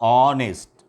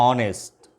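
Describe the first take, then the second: Both takes have the same delivery.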